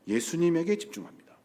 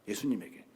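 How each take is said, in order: First: Said in the usual way. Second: 예수님에게 repeated much softer and lower, falling; quiet emphatic echo of 예수님에게; soft echoed stress. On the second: Shown as a demonstration. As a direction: hush it and let 예수님에게 land. Repeats key word.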